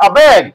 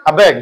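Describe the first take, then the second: First: Called out a bit louder. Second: Said in the usual way. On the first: Shown as a demonstration. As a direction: say it out louder for the class. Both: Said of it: "জোরে বলতে হবে".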